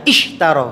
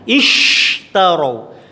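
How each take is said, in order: First: The sh sound is cut off abruptly. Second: The sh sound is held with airflow. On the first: The speaker calls it wrong. "ketika sukun maka langsung putus" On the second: The speaker calls it right.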